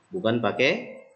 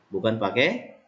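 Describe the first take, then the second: Both takes have the same delivery.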